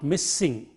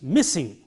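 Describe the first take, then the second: First: The s sound is held long, doubled. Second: The s sound is short and single. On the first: The speaker calls it wrong. "not missing" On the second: The speaker calls it right. "M I S S I N G is missing"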